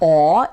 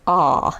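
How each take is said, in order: First: The vowel is dark, rounded toward aw. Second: The vowel is neutral, neither bright nor dark. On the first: "it's not aw" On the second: "It's like a very neutral ah, neither bright nor dark"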